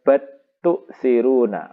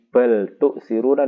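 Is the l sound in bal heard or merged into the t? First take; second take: merged; heard. First: The l merges into a doubled t. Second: The l is pronounced before the t.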